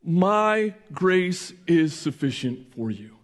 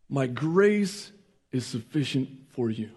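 First: Slow solemn quote. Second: Hushed repeat. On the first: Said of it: "But God said instead to him". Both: Shown as a demonstration.

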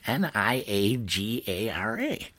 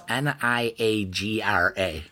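First: N I A G A R A spelled slowly, letter by letter; slow spelling. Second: Reading N I A G R A off the wine list, one letter at a time; spelled out letter by letter. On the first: Retold or imitated. Spelling Niagara out slowly for the waiter. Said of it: "So I'm like". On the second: Shown as a demonstration. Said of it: "There was a wine from Niagara Falls".

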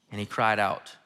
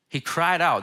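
First: Said in the usual way. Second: "He cried out" repeated with "cried" pushed up and held; stress on cried out. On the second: Shown as a demonstration. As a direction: lean hard on "cried out" to make it land.

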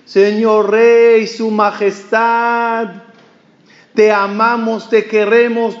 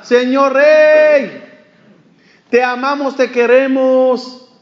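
First: Calling out to the king. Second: Calling out again. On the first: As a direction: hail the passing king from afar, stretching the words. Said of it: "empieza a gritarle al rey". (grito lento y alargado al rey) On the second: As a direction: stretch it out sweetly from the window, higher than before. Tailor calls from window again. (llamada aguda, fuerte y lenta desde la ventana) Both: Retold or imitated.

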